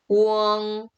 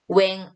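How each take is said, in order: First: The vowel sounds closer to 'uh'. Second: The vowel sounds like 'eh'. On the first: The speaker calls it right. "웡 이렇게 기억해 주시면 되겠죠" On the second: The speaker calls it wrong. "웽 아니고"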